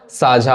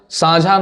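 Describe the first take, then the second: First: साझा with a clean oral first vowel, saajha; correct pronunciation. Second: साझा with an added nasal in the first vowel, saanjha; misspelling voiced. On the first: Teacher giving the correct word, साझा said without a nasal. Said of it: "साझा होता है". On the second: Teacher rejecting the student's spelling, साझा said as saanjha. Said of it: "साझा नहीं होता है". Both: Shown as a demonstration.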